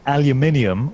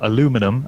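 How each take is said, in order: First: It has five syllables, with stress on the third. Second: It has four syllables, with stress on the second. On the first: "in Britain we call it aluminium" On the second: "as I guess uh, you Americans would say"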